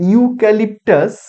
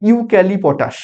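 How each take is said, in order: First: ইউক্যালিপটাস said slowly and carefully as eu-ca-lip-tas; careful teacher's model of ইউক্যালিপটাস; correct pronunciation. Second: ইউক্যালিপটাস broken wrongly as iu-ka-lip-o-tash with an extra vowel; mock wrong syllable split of ইউক্যালিপটাস; friend's mispronunciation. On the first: Shown as a demonstration. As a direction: spell out ইউক্যালিপটাস slowly, the right way. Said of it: "এই গাছটার নামটা ঠিকঠাক জানতো না". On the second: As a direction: imitate a classmate splitting ইউক্যালিপটাস in the wrong place. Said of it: "সে উচ্চারণ করেছিল".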